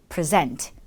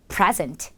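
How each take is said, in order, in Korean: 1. 강세는 두 번째 음절에 있어요. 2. 강세는 첫 번째 음절에 있어요. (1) "강세가 뒤에 있을 때" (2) "강세가 앞에 있을 때"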